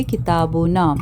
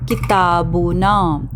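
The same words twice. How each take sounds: First: Said in the usual way. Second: किताबुना drawn out slowly, syllable by syllable; slow careful Arabic word. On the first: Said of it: "okay, किताबुना". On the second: Shown as a demonstration. Teacher modeling किताबुना for students, slow and careful. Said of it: "और हम सब की book तो".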